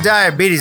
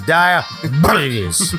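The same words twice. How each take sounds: First: The word is said plainly with clear lips. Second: The word is mumbled with loose, rumbling lips. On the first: The speaker calls it wrong. "It's not diabetes" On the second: The speaker calls it right. "it's diabetes. You gotta rumble your lips"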